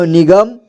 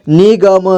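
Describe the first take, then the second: First: Said in the usual way. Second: निगम as नि-ग-म; syllable by syllable. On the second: Shown as a demonstration. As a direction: sound out निगम in three parts. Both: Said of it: "एक ही बार में पढ़ेंगे".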